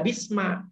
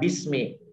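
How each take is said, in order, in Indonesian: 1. Kata itu diakhiri vokal a. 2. Kata itu diakhiri vokal i. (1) "tidak boleh dibaca bisma" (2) "Harus dibaca bismi"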